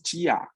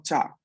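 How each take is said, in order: First: "chía" with a full stressed I; wrong chía. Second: "cha" with the I barely heard and the stress on the A; right cha. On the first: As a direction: stress the I in "chía" as its own syllable. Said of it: "no decimos chía". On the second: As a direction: let the I vanish into "cha". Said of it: "el acento lo moviéramos a la última letra". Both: Shown as a demonstration.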